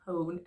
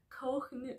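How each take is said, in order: First: Kohn with a silent h, like "cone"; correct name pronunciation. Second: Kohn with the h sounded as a throaty consonant before n; mispronounced name. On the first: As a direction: say Kohn as one smooth "kown". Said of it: "it's not, it's Kohn". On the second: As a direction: say Kohn wrongly, with an audible rasped h. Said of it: "he says it's not Kohn". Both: Shown as a demonstration.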